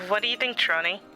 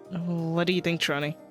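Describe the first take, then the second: First: The voice sounds thin, like through a radio. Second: The voice sounds plain and natural.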